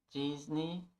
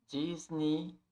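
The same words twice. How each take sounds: No difference in how they are said.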